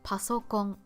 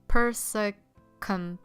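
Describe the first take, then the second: First: It is said with a Japanese accent. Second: It is said with an American accent.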